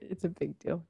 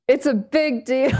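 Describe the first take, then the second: First: It is said hesitantly, without confidence. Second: It is said confidently, with full conviction.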